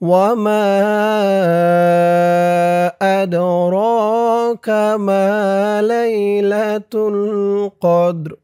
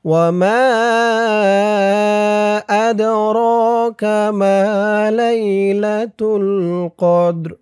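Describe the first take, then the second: Both takes have the same delivery.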